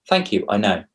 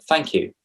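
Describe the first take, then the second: First: Even, matter-of-fact "Thank you, I know." at usual pitch; flat self-assured "Thank you, I know."; smug thanks. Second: Brisk "Thank you." lifted higher and bright; a quick, slightly higher polite "Thank you."; clipped thanks. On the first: Showing a compliment answer that sounds sticky, smug. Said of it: "That comes across as a bit sticky". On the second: Coaching how to accept a compliment, curt thanks. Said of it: "Don't just say". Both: Shown as a demonstration.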